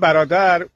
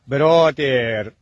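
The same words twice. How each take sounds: First: The word ends short and plain. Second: The end of the word is drawn out. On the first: This is how Persian speakers say it. "ما میگیم" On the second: This is how foreigners supposedly say it. "اونا میگن / کلماتشو آخرشو یه خورده میکشم"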